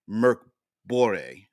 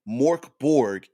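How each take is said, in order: First: The name is said close to its original form. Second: The name is said in an anglicized way. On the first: It follows the name's original language. "similar to how it's supposed to be pronounced" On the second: It names the game as its own thing. "Morkborg has become its own thing"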